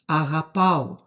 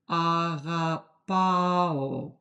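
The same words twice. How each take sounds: First: The word is said at normal speed. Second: The word is said very slowly. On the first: "when you say normal, normal speed" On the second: "If you said it very slowly"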